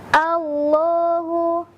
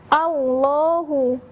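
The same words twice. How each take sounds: First: The l is pronounced thick and heavy. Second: The l sounds like a w. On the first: The speaker calls it right. "dilafazkan dengan cara menebalkan bunyi huruf lamnya" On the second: The speaker calls it wrong. "jadi bunyi seperti huruf waw"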